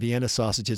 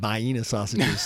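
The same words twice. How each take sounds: First: It uses another state's regional pronunciation. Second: It uses the South Carolina regional pronunciation. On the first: This is how people in the other speaker's home state say it. "you probably pronounce them Vienna sausages" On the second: This is how people in South Carolina say it. "like we do in South Carolina"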